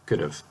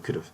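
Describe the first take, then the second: First: It is said carefully, with 'have' fully pronounced. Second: It is said quickly, with 'have' reduced. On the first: "but we're actually saying" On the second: "when we're speaking very quickly, it sounds like we say"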